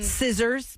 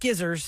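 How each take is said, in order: First: The word begins with a plain s sound. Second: The word begins with an sk sound.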